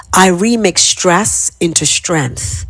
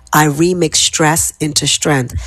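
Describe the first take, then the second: First: Slow affirmation. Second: Said in the usual way. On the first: Shown as a demonstration. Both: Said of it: "So repeat after me".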